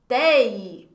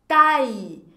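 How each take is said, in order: First: "taille" mispronounced as 'tay', with an E sound; mistaken pronunciation. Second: "Taille" said with an open 'ai', like 'tie'; correct French pronunciation. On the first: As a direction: say "taille" wrongly as 'tei'. ("taille" errado, com som de 'tei') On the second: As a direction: say "Taille" as 'tai', vowel wide open. ("Taille" com som de 'tai', bem aberto) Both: Shown as a demonstration. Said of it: "Vai ter pessoas que vão querer pronunciar".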